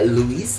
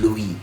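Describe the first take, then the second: First: The final S is pronounced. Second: The final S is silent. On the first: The speaker calls it wrong. "jadi tidak Louis" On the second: The speaker calls it right. "tapi menjadi Louis"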